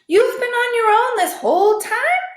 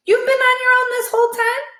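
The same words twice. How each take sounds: First: Higher, louder shocked ask; lightly voiced disbelief; amazed question. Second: High, loud, rushed question; quick high amazed ask; fast repeat. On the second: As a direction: hurry the repeated line. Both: Shown as a demonstration. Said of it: "let me repeat".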